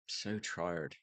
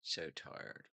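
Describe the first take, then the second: First: Said in the usual way. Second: Breathy whisper, much softer, drained. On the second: Real, not acted. Alone on stream, exhausted, sighing whisper. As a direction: barely breathe it out, worn out. Yawning, complaining of tiredness.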